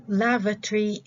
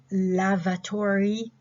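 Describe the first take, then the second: First: LAVATORY squeezed to "LAV-uh-tree"; reduced pronunciation. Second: LAVATORY drawn out slowly as "LAV-uh-tor-ee"; full pronunciation. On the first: Teacher contrasting it with the full form, reduced pronunciation. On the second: Teacher showing what the short form replaces, full pronunciation. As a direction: give "lavatory" its full "-tory" ending, slowly. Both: Shown as a demonstration. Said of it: "instead of".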